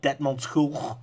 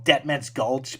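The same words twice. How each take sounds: First: It is said with a Dutch pronunciation. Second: It is said with an English pronunciation.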